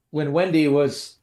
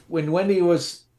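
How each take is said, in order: Both takes have the same delivery.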